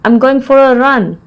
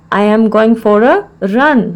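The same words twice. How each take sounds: First: Said in the usual way. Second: Measured, with a clear mid-phrase pause; broken into parts. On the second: Shown as a demonstration. Teacher repeats the phrase for learners, in separated parts.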